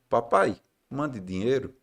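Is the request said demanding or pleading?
pleading. The request sounds soft and pleading. The son is gently asking for help. The speaker calls it right. "Não, ele não escreveu isso, não"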